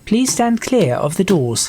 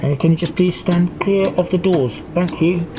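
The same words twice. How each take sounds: First: Slow, measured door announcement; train announcer. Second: Casual driver over the PA system; driver on the tannoy. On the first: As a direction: space it out like an automated announcement. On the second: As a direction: improvise an offhand tannoy request to passengers. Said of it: "maybe the driver would come up on the". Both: Acted.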